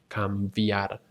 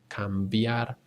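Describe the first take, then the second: The two takes are said the same way.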